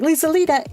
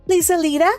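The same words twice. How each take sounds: First: It is said in the speaker's normal voice. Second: It is said in the character's imitated voice.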